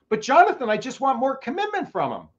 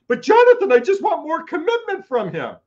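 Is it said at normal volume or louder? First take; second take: normal; louder. First: It is said at a normal volume. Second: It is said louder, nearly screaming.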